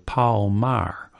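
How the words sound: The name is said in a Kentucky accent. "At the Kentucky High School where I first taught"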